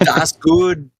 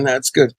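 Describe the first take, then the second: First: It is said in a put-on German accent. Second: It is said in a plain, unaccented way.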